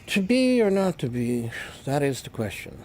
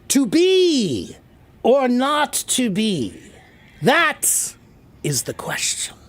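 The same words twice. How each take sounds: First: It is said quietly and mumbled. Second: It is said loudly, projected and open.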